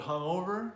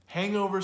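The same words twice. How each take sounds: First: "hungover" stressed on the "o"; stress on second syllable. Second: "Hangover" with HANG high and loud; stress on first syllable. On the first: Teacher contrasts two words, "hungover" stressed on O. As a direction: lift the middle: hung-O-ver. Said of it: "stresses the second". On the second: Teacher contrasts two words, "Hangover" stressed on HANG. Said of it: "stresses the first". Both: Shown as a demonstration.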